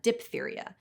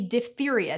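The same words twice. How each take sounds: First: The first syllable is said as dip. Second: The first syllable is said as dif. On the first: The speaker calls it wrong. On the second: The speaker calls it right. "should be"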